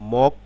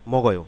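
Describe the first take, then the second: First: The syllables are said separately with a break. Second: The final consonant links into the next vowel.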